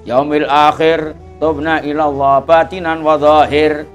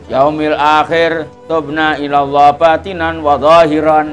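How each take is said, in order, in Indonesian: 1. Kata terakhir berakhir tanpa suku kata tambahan -an. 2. Kata terakhir berakhir dengan suku kata tambahan -an. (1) "Jadi memang dimatikan gitu dari Hadramut" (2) "ya kena wae tapi ya ora patek nyaman"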